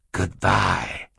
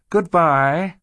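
First: A hint of Count Olaf's villain voice; lightly voiced villain saying goodbye; villain's farewell. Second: Put-on high, louder child's voice; young girl's farewell. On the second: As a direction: call it out high, like a girl. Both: A narrator's reading.

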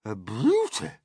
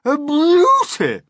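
First: Raised, admiring aunt voice; admiring cry. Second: Very high, loud, drawn-out cry. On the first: Aunt first admiring the peach, a contained cry. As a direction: begin the admiring cry with some restraint. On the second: Aunt overjoyed by the peach, crying out. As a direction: let the admiration burst out slowly and loudly. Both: A narrator's reading. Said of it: "Aunt Sponge cried out".

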